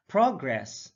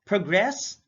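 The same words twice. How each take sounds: First: PROgress, falling away after PROG; careful demo of PROgress; stress on first syllable. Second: ProGRESS, rising on GRESS; careful demo of proGRESS; stress on second syllable. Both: Shown as a demonstration. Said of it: "stress is the verbal emphasis used".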